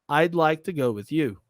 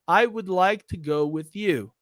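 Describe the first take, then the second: First: Would is contracted into I'd. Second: The word would is said in full. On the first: "Eu posso falar I'd, ... Então aqui houve uma contração" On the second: "Ao invés de falar I would"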